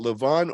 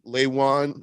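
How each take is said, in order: First: The first syllable does not sound like 'lay'. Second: The first syllable sounds like 'lay'. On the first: The speaker calls it wrong. "Both are wrong" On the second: The speaker calls it right. "It sounds so weird to say it that way"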